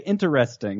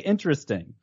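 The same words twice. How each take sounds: First: The word is said with four syllables. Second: The word is said with three syllables. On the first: "very few people actually say interesting" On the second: "Most say interesting"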